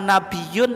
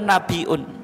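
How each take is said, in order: First: The middle has a doubled y sound. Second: The middle has a glottal stop. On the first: "dengan tasdid itu" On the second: "dengan hamzah"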